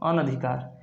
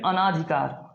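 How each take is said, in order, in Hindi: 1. 'an' के बाद लंबा 'aa' स्वर नहीं आता है। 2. 'an' के बाद लंबा 'aa' स्वर आता है। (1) "क्या होता है" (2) "न कि अना"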